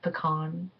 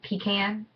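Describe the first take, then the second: First: It is said with a non-Southern pronunciation. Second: It is said with a Southern pronunciation. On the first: "instead of pecan" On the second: "another southernism I picked up is I say pecan"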